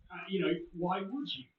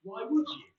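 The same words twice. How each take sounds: First: Said in the usual way. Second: The repeat pushed higher and louder; emphatic repeat. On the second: Real, not acted. Co-host doubting anyone would break the law, higher and louder. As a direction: lean hard into it the second time. Repeats the question more forcefully.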